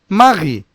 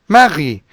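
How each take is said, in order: No difference in how they are said.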